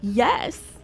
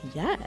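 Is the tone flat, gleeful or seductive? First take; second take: gleeful; seductive. First: It is said with gleeful excitement. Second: It is said in a seductive tone.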